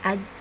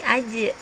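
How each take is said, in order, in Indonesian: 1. Konsonan terakhir berhenti datar tanpa gema. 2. Konsonan terakhir memantul dengan gema singkat. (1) "bukan aj" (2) "tapi aje, seperti memantul"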